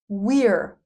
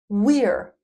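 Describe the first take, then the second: First: The words merge into one short syllable. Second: The same.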